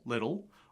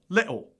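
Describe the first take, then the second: First: American accent with a D-like T. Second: Cockney or Scottish accent with a glottal T.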